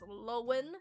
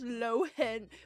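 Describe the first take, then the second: First: No H sound is said in the middle. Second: An H sound is said in the middle. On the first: "Because it's a silent H" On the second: "Pronounce it H"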